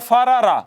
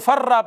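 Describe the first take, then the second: First: The two r sounds are separated by a vowel. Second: The two r sounds merge into one doubled r. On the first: "दो रा इकट्ठी आई हैं, पहली भी मुतहर्रक है दूसरी भी मुतहर्रक है" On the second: "पहली को दूसरी में जम करके फर्रा पढ़ें"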